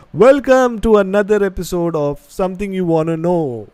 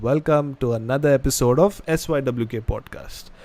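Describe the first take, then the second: First: Mock announcer intro, a touch higher and louder; long podcast intro. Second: Said in the usual way. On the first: Shown as a demonstration. Host shows the clumsy full intro to viewers, announcer style. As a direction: belt out the full show intro like a presenter. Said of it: "how difficult it is, you know, to say". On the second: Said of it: "Sweet and simple".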